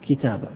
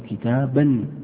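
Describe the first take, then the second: First: The word ends in a long vowel without n. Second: The word ends with an audible n sound. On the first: The speaker stops after this word. "عند الوقف أيضا لا تقف على التنوين، تقول اشتريت كتابة" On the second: The speaker continues into the next word. "لكنك لو وصلت تقول اشتريت كتابا مفيدا"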